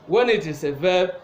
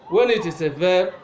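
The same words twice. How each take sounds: No difference in how they are said.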